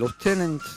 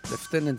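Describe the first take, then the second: First: The word is said in an American pronunciation. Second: The word is said in a British pronunciation. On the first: "בארצות הברית בטח היו קוראים להם Lieutenant" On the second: "זה בהיגוי הבריטי"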